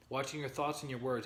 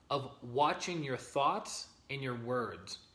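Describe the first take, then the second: First: Said in the usual way. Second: "watching your thoughts and your words" drawn out slowly, word by word; slow and deliberate. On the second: Shown as a demonstration. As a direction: lay each word down slowly so it sinks in.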